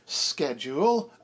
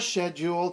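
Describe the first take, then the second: First: The word begins with an sk sound. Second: The word begins with an sh sound. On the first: It follows the Latin root. "in accordance with the Latin root" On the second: It follows the French way and German-style spelling. "to match the French way and the way it sort of looked to, you know, people who are used to the German standard"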